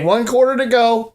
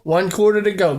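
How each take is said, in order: First: Excited. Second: Said in the usual way. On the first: Real, not acted. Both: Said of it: "Gotta kinda tone it down".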